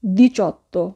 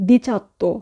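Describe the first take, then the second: First: ডিচত্তো with stressed "CHO" in the middle; correct "cho". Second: ডিচাত্তো with "cha" in the middle; wrong "cha". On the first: Teacher corrects learners on eighteen, ডিচত্তো with "cho". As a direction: round the middle vowel of ডিচত্তো to o. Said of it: "হবে চো". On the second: Teacher quotes learners' slip on eighteen, ডিচাত্তো with "cha". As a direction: open the middle vowel of ডিচাত্তো to a. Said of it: "আমরা অনেকেই ভুল উচ্চারণ করি". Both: Shown as a demonstration.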